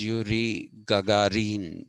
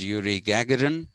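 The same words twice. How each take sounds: First: The name is said in a non-Western way. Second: The name is said the typical Western way. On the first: The speaker calls it right. "the pronunciation is" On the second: The speaker calls it wrong. "the Westerners will typically pronounce his name as"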